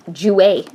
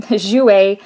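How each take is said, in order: First: "Jouer" said with a hard "j" as in "jump", "joo-ay"; "Jouer" started with an English "j", "joo-ay"; mispronounced brand name. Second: "Jouer" said the French way, "zhoo-ay"; corrected pronunciation. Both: Shown as a demonstration.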